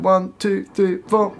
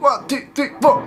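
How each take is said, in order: First: The count is spoken at a slower tempo. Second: The count is spoken at a fast tempo.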